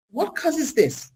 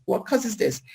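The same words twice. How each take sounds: First: High, slow, drawn-out question; dramatic question. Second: Said in the usual way. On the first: Shown as a demonstration. Speaker asks the audience, slow high questioning. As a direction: stretch the question what causes this? high and slow. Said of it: "rhetorical question, asked twice". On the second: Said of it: "repeat of the question".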